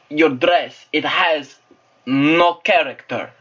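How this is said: It is spoken with a Russian-sounding accent. "This is Russian"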